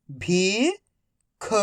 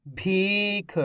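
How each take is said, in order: First: "भीख" split into भी, pause, ख, each drawn out; syllable by syllable. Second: "भीख" joined as one word, long ee; syllables blended. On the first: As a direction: sound out "भीख" slowly, भी rising, then ख alone. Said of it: "एक एक अक्षर का उच्चारण". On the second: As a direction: say "भीख" in one connected stretch. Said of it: "तो मिलके बन जाएगा". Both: Shown as a demonstration.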